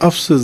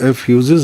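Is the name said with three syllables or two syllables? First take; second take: two syllables; three syllables. First: The name has two short syllables, 'ef-sus'. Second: The name has three syllables with a 'fyoo' sound. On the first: The speaker calls it right. "بلکہ افسس ہے" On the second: The speaker calls it wrong. "ایفیوزز نہیں"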